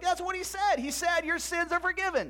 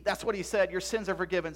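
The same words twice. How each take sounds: First: High, emphatic repeat; emphatic insistence. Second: Said in the usual way. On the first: Acted. Zeb insisting to his doubting friend, emphatic. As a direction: insist on it, pitch held high.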